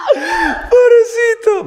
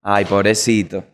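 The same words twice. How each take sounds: First: Very high, slow, shrieking through laughter; cracking up while calling him poor thing; howling with laughter; laughing pity. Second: Sympathy. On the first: Laughing at Michael hitting the light. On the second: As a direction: lower and slower, gentle pity. Calming after laughing at Michael. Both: Real, not acted.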